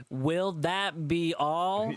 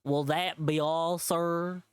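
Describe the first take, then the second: First: Very slow, every word spelled out; over enunciating. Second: Slow, clearly enunciated cashier; over enunciating. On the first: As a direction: speak as if to someone deaf. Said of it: "enunciated clearly like I was deaf". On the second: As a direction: talk down slowly to a foreigner. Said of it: "He enunciated clearly like I was deaf". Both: Acted.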